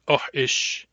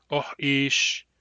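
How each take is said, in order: First: "oh ish" with both vowels short; short-short variant. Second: "Oh ish" with a long second vowel; short-long variant. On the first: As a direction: keep "ish" brief in "oh ish". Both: Shown as a demonstration. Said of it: "different pronunciations of the same word".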